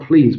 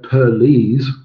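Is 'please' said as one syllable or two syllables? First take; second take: one syllable; two syllables. First: The word is said as one syllable. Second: The word is split into two syllables. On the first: It is an ordinary polite request. "not please" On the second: It tells someone to stop talking. "but per lease into two"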